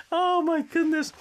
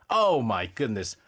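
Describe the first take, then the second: First: High, laughing "Oh"; laughing exclamation. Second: Low, slow, drawn-out dismay; exasperated groan. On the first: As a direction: burst out through the laughter. Laughing at the cover again. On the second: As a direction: sink into disbelief. Reacting to the bad cover. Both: Real, not acted.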